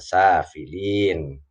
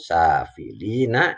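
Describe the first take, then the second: First: The word ends on n with no vowel. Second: The word ends with a final a vowel. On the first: The reading stops at this word. "kalau kita baca waqaf diberhentikan maka safilin" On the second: The reading continues on without stopping. "kalau kita baca wasal sambung safilina ini seperti ini, ada a-nya"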